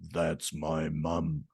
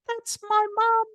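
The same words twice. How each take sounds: First: It is said in a low-pitched voice. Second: It is said in a high-pitched voice. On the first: "Saying the same sentence with a low pitch voice" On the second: "saying the words with a high pitch voice"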